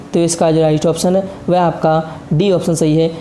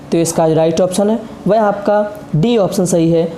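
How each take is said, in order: No difference in how they are said.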